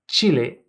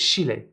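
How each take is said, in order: First: The word begins with a ch sound. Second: The word begins with a sh sound. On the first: "they pronounce ch as sh" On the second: "get pronounced as Chile"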